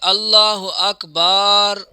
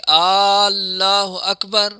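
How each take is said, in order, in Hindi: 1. Akbar में b के बाद वाला स्वर खींचा गया है। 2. Allah का पहला स्वर लंबा खींचा गया है। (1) "अल्लाह अकबर की बा के आगे अलिफ बढ़ा रहा है" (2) "पहले जो पढ़ रहा है वो अल्लाह कर रहा है, अलिफ को इतना बढ़ा रहा है"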